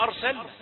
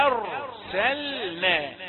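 First: أرسلنا with the hamza thickened by the heavy ra; wrong heavy hamza. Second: أرسلنا said very slowly, light hamza, heavy ra. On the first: Teacher imitating a common mistake. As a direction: darken the a of أرسلنا. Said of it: "كثيرون ينطقون هكذا". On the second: Teacher showing the correct reading. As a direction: keep the hamza of أرسلنا thin, thicken only the r. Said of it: "لكن نريد أن نقول آ". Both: Shown as a demonstration.

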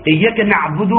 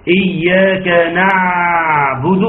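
First: Quick إياك نعبد, ع passed over briefly; ayn too short. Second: Slow إياك نعبد with exaggerated long ع; ayn too long. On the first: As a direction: clip the ع in نعبد with no sustain. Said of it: "لا تقول لي إيه؟". (إياك نعبد بسرعة دون زمن للعين) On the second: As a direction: overstretch the ع in نعبد as a mistake. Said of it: "ولا تقول لي". (إياك نعبد بمبالغة في تطويل العين) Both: Shown as a demonstration.

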